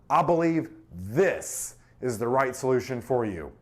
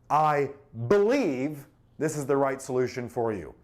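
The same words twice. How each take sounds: First: The word "this" carries the stress. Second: The word "I" carries the stress. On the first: This one is chosen over other options. "This, there's other options, right?" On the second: The speaker personally holds this view. "Personal conviction?"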